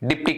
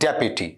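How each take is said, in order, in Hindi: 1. इसे दो अक्षरों में बोला जाता है, जैसे dip-tee। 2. इसे तीन अक्षरों में बोला जाता है, जैसे dep-yoo-tee। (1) "ऐसा बोलते हैं ना बच्चे, डिप्टी कमिश्नर, डिप्टी कलेक्टर, गलत।" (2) "डिप्टी की डेप्यूटी"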